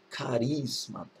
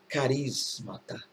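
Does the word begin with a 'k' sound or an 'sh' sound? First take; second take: k; k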